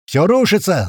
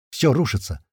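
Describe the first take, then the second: First: High, loud panicked yell; panicked scream. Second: Said in the usual way. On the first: A narrator's reading. April screaming to the squad as it collapses. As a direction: scream it in a voice not your own. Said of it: "заорал не своим голосом Апрель". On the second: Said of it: "заорал не своим голосом".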